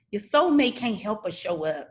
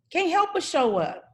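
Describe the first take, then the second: First: Said in the usual way. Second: Emphatic higher repeat. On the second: Shown as a demonstration. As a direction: repeat "Can't help but show up" much higher, pressing it home.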